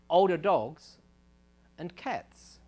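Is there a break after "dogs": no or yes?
yes. There is a break after dogs before and cats. Older dogs and cats of any age are at risk.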